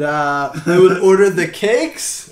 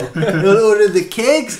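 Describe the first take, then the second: First: It is spoken in a put-on Pakistani accent. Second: It is spoken in a put-on German accent. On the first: "Some Pakistani guy's gonna be like" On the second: "Actually, he's German now"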